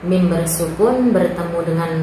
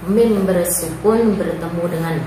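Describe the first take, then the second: The two takes are said the same way.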